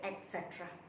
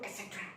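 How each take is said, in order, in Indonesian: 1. Frasa itu diucapkan lambat. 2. Frasa itu diucapkan cepat. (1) "kalau kita lambat sedikit" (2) "Kadang-kadang yang laju"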